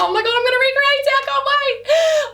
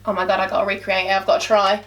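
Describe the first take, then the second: First: High-pitched excited squeal; buzzing with excitement. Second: Low, quick mock worry; daunted second thought. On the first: Retold or imitated. Vlogger replaying her reaction to fans' praise, excited squeal. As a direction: gush it, much higher, stretching the last words. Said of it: "I was so buzzing". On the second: Vlogger retelling her doubts about recreating a look, low mock dread. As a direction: drop low and hurry through it. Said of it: "And then I'm like".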